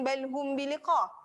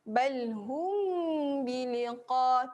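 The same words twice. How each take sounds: First: The nasal hum on the m is very brief. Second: The nasal hum on the m is held long. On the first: The speaker calls it wrong. "jangan sekejap je" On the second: The speaker calls it right. "Dengung ya"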